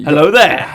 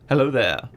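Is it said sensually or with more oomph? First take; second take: oomph; sensually. First: It is said with upward energy and punch. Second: It is said in a soft, sensual way.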